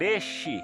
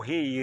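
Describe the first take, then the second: First: The R is made with the tongue tip. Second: The R is made in the throat. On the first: The speaker calls it right. "é falado na ponta da língua" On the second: The speaker calls it wrong. "não é o rei"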